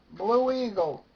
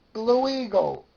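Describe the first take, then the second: No difference in how they are said.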